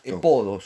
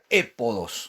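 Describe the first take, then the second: First: The stress is on the second syllable. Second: The stress is on the first syllable. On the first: The speaker calls it right. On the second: The speaker calls it wrong. "no se pronuncia épodos"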